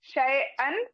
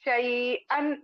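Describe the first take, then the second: First: शैअन said the Urdu way, as in everyday Urdu; Urdu लहजे में शैअन; Urdu pronunciation. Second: शैअन said the Arabic way, like शई with the ain sounded from the throat; Arabic recitation of शैअन, ain from the throat; Arabic pronunciation. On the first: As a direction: give शैअन its Urdu sounding, the wrong way for recitation. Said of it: "ये उर्दू का तलफ़ुज़ है". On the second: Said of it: "इसको हम शई पढ़ेंगे". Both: Shown as a demonstration.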